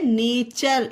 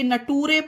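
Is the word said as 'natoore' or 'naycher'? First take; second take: naycher; natoore. First: It is said with a 'cher' ending, like 'naycher'. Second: It is said letter by letter, like 'natoore'. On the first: The speaker calls it right. "ये है नेचर" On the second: The speaker calls it wrong. "नटूरे नहीं है"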